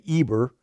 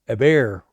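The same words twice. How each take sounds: First: The name is said with an English pronunciation. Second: The name is said with a Hebrew pronunciation. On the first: "We say Eber" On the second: "Eber is more how you'd say it in Hebrew"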